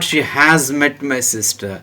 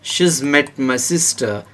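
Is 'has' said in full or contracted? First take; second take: full; contracted. First: The word has is said in full. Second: The word has is contracted to a z sound. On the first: The speaker calls it wrong. "not she has met my sister" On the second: The speaker calls it right. "So you have to pronounce here she's"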